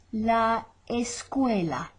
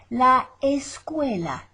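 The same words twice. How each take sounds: First: La escuela drawn out slowly; slow repeat. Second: La escuela said clearly and louder; model. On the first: Teacher repeats La escuela slowly for copying. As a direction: stretch La escuela for learners. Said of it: "slow repeat". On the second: Teacher models La escuela for students, clear. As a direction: give La escuela crisply. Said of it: "model word". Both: Shown as a demonstration.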